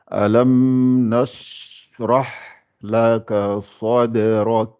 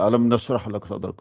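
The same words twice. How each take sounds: First: The phrase is read slowly, each letter articulated. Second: The phrase is read quickly, letters run together. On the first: The speaker calls it right. "je laisse chaque lettre sortir" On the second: The speaker calls it wrong. "je ne lis pas vite en disant"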